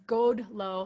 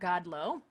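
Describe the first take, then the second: First: The first vowel is a short 'o' sound. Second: The first vowel is an 'a' sound. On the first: The speaker calls it right. "godlo is god lo" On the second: The speaker calls it wrong. "not god lo"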